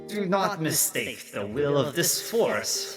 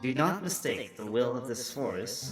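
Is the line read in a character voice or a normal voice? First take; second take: character; normal. First: It is read in a put-on character voice. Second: It is read in a plain, ordinary voice. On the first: The speaker calls it right. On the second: The speaker calls it wrong.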